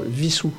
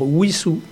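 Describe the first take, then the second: First: The name begins with a V sound. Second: The name begins with a W sound. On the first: This is how everyone says it today. The speaker calls it wrong. "et non pas Vissou" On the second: This is the historical pronunciation marked by the spelling. The speaker calls it right. "c'est simplement la marque qu'on devait prononcer c'est-à-dire Wissou"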